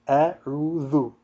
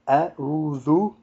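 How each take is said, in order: No difference in how they are said.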